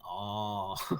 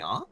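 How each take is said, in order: First: The pitch falls like a statement. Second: The pitch rises like a question. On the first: The listener shows understanding. "showing understanding" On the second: The listener is asking a question. "you want to hear a question"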